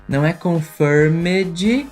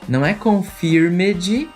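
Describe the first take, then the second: No difference in how they are said.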